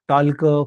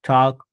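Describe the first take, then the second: First: An L sound is heard before the K. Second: No L sound is heard before the K. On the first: The speaker calls it wrong. "टॉल्क, फॉल्क, वॉल्क असं नाही म्हटलं जात" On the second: The speaker calls it right. "एलचा उल्लेख शक्यतो avoid होतो"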